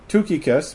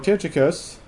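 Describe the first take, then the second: First: The name is said with a Greek-style pronunciation. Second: The name is said with an English-style pronunciation. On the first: The speaker calls it right. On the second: The speaker calls it wrong.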